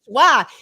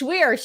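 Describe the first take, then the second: First: The name ends in an open 'ah' vowel. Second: The name ends in an 'eer' sound with r. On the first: A Boston speaker's version of the name. The speaker calls it wrong. "my mom is from Boston, ... still cannot pronounce my last name" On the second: The name's own proper pronunciation. The speaker calls it right. "it's not Schwa, it's Schweer"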